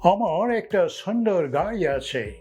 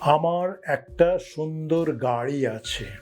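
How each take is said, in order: First: It is spoken with an English accent. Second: It is spoken with a native Bengali accent.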